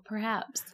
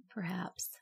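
First: Said in the usual way. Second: Breathy mysterious whisper. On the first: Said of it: "repeated as whisper". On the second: Pretend. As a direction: whisper it, spooky. Echoed in a whisper.

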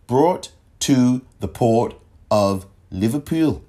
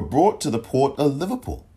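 First: Slow, deliberate mock Liverpool accent; bad Liverpool accent. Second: Said in the usual way. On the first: Shown as a demonstration. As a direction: do a deliberately poor Scouse accent. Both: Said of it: "my worst Liverpool accent".

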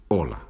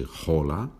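First: Hola starting straight on the O, no H; silent H. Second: Hola with a breathy English H at the start; wrong pronunciation. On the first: Teacher shows learners the Spanish way, hola with a silent H. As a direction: say hola as "ola", tune falling. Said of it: "the H is not pronounced in Spanish". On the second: Teacher shows learners what not to say, hola with an audible H. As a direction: sound the H in hola, tune rising. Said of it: "we don't say hola". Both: Shown as a demonstration.

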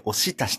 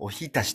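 First: おしたし said with shi, not hi; Edo dialect pronunciation. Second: Said in the usual way. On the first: Shown as a demonstration. Telling listeners how Monzen-Nakacho bar menus say it, with an Edo shi sound. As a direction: say おしたし, turning the hi of ohitashi into shi. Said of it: "おひたしって書いてなくて". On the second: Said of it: "おしたしって書いてあるんだよね".

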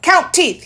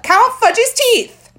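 First: Put-on demanding toddler. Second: Put-on higher, louder, slow little-boy demand; drawn-out childish insisting; insistent toddler demand. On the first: Fudge demanding. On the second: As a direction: stretch it out like a bossy toddler.

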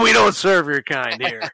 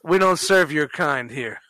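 First: Laughing through the mock put-down; half-laughing repeat of the joke line; snooty waiter. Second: Slow cold refusal, mock bouncer; deadpan slow put-down, barring a patron; snooty waiter. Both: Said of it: "just fucking with you".

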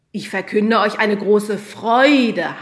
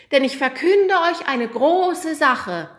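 First: Slow, loud correction stressing "Freude" with a falling end; teacher models the right word "Freude", slow and loud; correcting the line. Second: High, slow angel proclamation with "Sache" as the fallen final word; child angel declares "große Sache" loudly, much higher; proclaiming wrong word. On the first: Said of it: "korrigierte sie der Lehrer". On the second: Sagte Hanna. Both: Acted.

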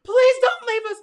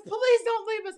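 First: Much higher, louder pleading scream; retold scream. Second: High pleading cry. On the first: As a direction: beg him at the top of your voice not to go. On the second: Retold or imitated. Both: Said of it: "Mariah's screaming".

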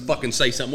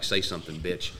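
First: Said in the usual way. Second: Low, hushed taunt; retold whisper. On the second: J C getting up on the fraud, hushed menacing taunt. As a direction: dare him under your breath, much softer and lower. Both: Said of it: "I start whispering at him".

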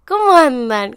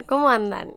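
First: Loud greeting. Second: Said in the usual way. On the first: Real, not acted. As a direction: call out the hello brightly. Greeting the listeners again. (saludo en voz alta)

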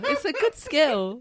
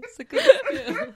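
First: Said in the usual way. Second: High, slow, laughing; mock high praise. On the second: Shown as a demonstration. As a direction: stretch it out high and amused.

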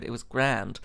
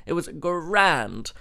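First: Said in the usual way. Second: GRAND stretched slow and higher; slow, emphatic rave landing on GRAND; drawn-out emphasis. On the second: Real, not acted. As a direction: savour a long, rolled-out GRAND. Emphatic repeat of praise.

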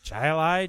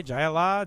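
First: "Allah" ending in an "eye" sound; trying a pronunciation. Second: "Allah" ending in an open "ah"; trying a pronunciation. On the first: Host guessing at the beer's name, ending "Allah" like "lie". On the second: Host guessing at the beer's name, ending "Allah" in "lah". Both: Shown as a demonstration.

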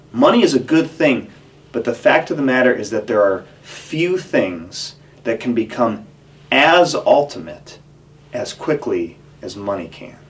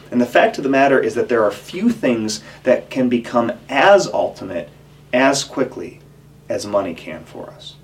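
First: Slowed, stressing "as ultimate" and "as quickly"; slow emphatic repeat. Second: Said in the usual way. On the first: Shown as a demonstration. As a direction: lean on "as ultimate", drawn out. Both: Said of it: "I'm just gonna say that again".

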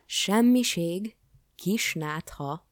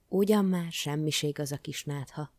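First: Loud, high, drawn-out outraged questions; indignant echo. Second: Mild, breezy brush-off; dismissive. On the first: King to the dismissive jester, indignant echo. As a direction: throw each word back in slow disbelief. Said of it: "háborgott a király". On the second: Jester to the sick king, breezily dismissive. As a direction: wave the worry away in one run. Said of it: "mondta az udvari bolond". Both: A narrator's reading.

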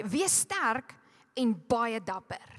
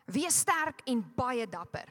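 First: "Wees sterk en baie dapper" read slowly in Afrikaans. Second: Said in the usual way. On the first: Shown as a demonstration. Preacher reads the Afrikaans verse to the church, slowly. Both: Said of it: "the Afrikaans translation says".

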